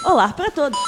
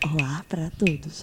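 First: It is said in a plain, normal voice. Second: It is said in a put-on sexy voice.

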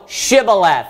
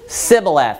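First: The word begins with an 'sh' sound. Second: The word begins with an 's' sound. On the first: This is the Gileadites' pronunciation. The speaker calls it right. "Hey, say" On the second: This pronunciation marks the speaker as an Ephraimite. The speaker calls it wrong. "they could not frame to pronounce it the way in which the Gileadites would"

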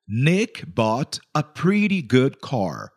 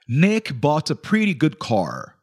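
First: It is said more slowly. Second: It is said at normal speed.

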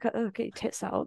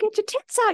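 First: It is shouted in a hostile, leering tone. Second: It is shouted in a cheering, encouraging tone. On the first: The shout is meant as harassment. "not in like" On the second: The shout is meant as encouragement. "they're saying it in like a supportive way"

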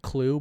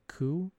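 First: It is said with an L, like 'clue'. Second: It is said without an L, like 'coo'. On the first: The speaker calls it wrong. "I think I always say it clue" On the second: The speaker calls it right. "but it's like coup"

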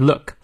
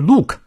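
First: The vowel is short. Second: The vowel is long. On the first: The speaker calls it right. "Look 是短u" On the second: The speaker calls it wrong. "所以不是look"

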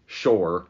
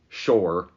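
First: The vowel sounds like 'oh'. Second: The vowel sounds like 'oh'.

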